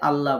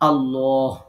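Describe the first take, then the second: First: The L is light and thin. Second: The L is heavy and full. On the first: The speaker calls it wrong. "আমরা অনেক সময় বাংলাতে আল্লাহ বলি, এটা সঠিক উচ্চারণ না" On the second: The speaker calls it right. "সঠিক উচ্চারণটা হচ্ছে আল্লাহ"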